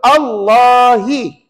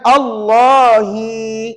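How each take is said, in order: First: The final vowel is short. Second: The final vowel is drawn out long. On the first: The speaker calls it right. "cuba ikut" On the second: The speaker calls it wrong. "kat sini jangan dibaca panjang. Jangan"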